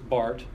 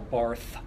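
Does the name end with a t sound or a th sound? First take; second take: t sound; th sound. First: The name ends with a t sound. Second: The name ends with a th sound. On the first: The speaker calls it right. "it's Bart" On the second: The speaker calls it wrong. "people, no"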